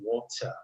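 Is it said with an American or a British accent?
British. British accent, with a clear T and dropped R.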